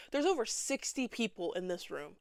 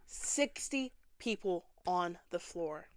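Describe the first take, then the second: First: Said in the usual way. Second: Breathy whispered aside; hushed disbelief at the crowd. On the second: Acted. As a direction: whisper it like a shocked secret. Whispered aside after the count.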